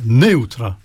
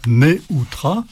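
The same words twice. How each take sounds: First: The stress is on the first syllable. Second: The stress is not on the first syllable. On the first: The speaker calls it right. "on dira neutra" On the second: The speaker calls it wrong. "on ne dira pas neutra"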